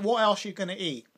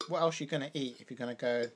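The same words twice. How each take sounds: First: Emphatic, louder. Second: Said in the usual way. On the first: Real, not acted. Emphatic rhetorical question.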